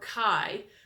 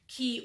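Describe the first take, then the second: First: The word ends in an 'eye' vowel sound. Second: The word ends in an 'ee' vowel sound. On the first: "you can pronounce that Key or Kai" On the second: "you can pronounce that Key or Kai"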